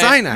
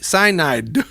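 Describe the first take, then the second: First: The D sound is dropped or barely heard. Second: The D sound is clearly pronounced. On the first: The speaker calls it wrong. "you're just not enunciating the D" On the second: The speaker calls it right.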